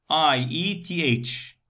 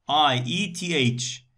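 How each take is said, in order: The two takes are said the same way.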